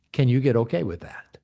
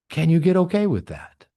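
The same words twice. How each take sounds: First: Said in the usual way. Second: "okay" pressed louder, falling to the end; emphatic repeat. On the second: Shown as a demonstration. Speaker challenging his audience, louder with "okay" stressed.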